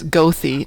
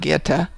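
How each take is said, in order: First: It is said the local, literal way. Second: It is said the non-local, foreign way. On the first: The speaker calls it right. "We say it the way it's spelled" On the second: The speaker calls it wrong. "not Goethe"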